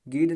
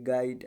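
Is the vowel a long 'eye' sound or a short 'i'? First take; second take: short i; long eye. First: The vowel is a short 'i' sound. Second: The vowel is a long 'eye' sound. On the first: The speaker calls it wrong. "गिड नहीं पढ़ा जाएगा" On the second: The speaker calls it right. "देखो ऐसे गाइड"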